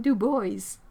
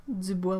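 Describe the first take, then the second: First: Put-on "Dubois" said as "DOO-boyz"; anglicised pronunciation. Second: "Dubois" said as French "dü-BWAH"; French pronunciation. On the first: Reading that someone lived in Wyoming, anglicised pronunciation. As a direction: say "Dubois" the American way, rhyming with "boys". Reads town name, American way. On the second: Repeating the Wyoming town's name, French pronunciation. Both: Shown as a demonstration.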